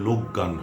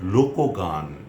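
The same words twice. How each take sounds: First: The k runs straight into gan without a vowel. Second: An o vowel follows the k before gan. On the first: The speaker calls it wrong. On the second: The speaker calls it right.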